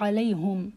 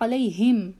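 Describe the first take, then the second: First: The final syllable has a u vowel. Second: The final syllable has an i vowel. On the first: "কোনো কোনো ডায়ালেক্টে এই হিমটাকে হুম পড়ে" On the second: "এই যে আলাই হিম"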